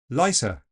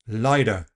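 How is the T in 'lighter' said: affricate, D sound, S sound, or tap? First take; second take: S sound; tap. First: The T is replaced by an S sound. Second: The T is a quick tap. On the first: "swap it completely for a fricative S" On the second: "Tapping the T"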